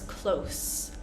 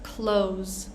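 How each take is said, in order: First: The final consonant is a hissing s sound. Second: The final consonant is a buzzing z sound. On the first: It means near in distance. "If we're talking about something that is um, like the distance" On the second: It is the verb meaning to shut. "If we're using it as a verb"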